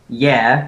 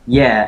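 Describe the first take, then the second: First: The voice rises at the end, like a question. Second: The voice falls at the end, like an answer. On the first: It asks whether the video was posted. "question mark" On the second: It confirms that the video was posted. "as in like yes, he did post that"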